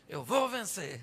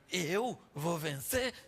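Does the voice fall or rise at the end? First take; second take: fall; rise. First: It ends falling, like a firm statement. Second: It ends rising, like a doubtful question. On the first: The speaker is confident of winning. "O que era uma afirmação à noite" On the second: The speaker now doubts winning. "já está mudando a pontuação ... uma interrogação"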